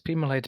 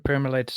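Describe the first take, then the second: First: The first syllable has no R sound. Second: The first syllable has an R sound. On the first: The speaker calls it right. "Oh, it's it's it's Pemalites" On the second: The speaker calls it wrong. "I was saying per- Permalites too"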